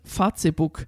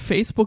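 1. Facebook wird mit deutschen Leselauten ausgesprochen. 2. Facebook wird mit englischen Lauten ausgesprochen. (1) "Die sagt ... Facebook" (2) "statt Facebook"

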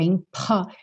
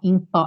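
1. O P tem um sopro forte de ar. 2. O P não tem sopro de ar. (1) "é impó. Tem quase uma tossezinha" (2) "Não é impó"

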